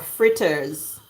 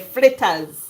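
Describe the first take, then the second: First: It is said with an r sound after f. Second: It is said with an l sound after f. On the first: It is the standard English form. "if you want to do standard English, they say fritters" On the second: It is the Jamaican patois form. "In Jamaica they would say flitters. You know, that's the patois accent"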